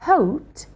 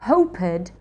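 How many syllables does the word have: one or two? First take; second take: one; two. First: The ending is a t without an extra syllable. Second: The ending is a separate extra syllable. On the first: The speaker calls it right. "is correct" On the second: The speaker calls it wrong. "is a mistake"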